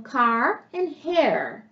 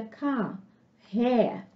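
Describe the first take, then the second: First: Car and hair with the r curled and sounded at the end, slowly; American r. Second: Car and hair with no r at the end, softly; British r. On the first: Teacher shows students the American r, slowly. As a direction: roll the final r in car and hair, American style. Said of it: "Ela é enrolada, mas ela é pronunciada". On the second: Teacher shows students the silent British r. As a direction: drop the final r in car and hair, British style. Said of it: "a gente não pronuncia o R no final da palavra". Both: Shown as a demonstration.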